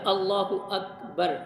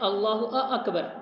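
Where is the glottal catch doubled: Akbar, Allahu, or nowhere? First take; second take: nowhere; Akbar. First: No extra glottal vowel is added anywhere. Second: An extra glottal vowel comes before Akbar. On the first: It states that God is the greatest. The speaker calls it right. "तो लिहाजा अल्लाहु अकबर" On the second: It asks whether He is the greatest. The speaker calls it wrong. "अकबर में जो हमज़ा उसको अगर आप डबल कर देते हैं"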